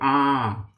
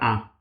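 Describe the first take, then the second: First: The vowel is held for a longer time. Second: The vowel is held only briefly. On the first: "É um A mais longo" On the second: "curtinho, normal"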